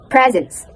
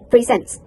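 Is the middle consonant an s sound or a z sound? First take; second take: z sound; s sound. First: The middle consonant is a z sound. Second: The middle consonant is an s sound. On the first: "In American accent, ... There's some Z in the middle" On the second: "in British accent, ... There's no some Z in the middle"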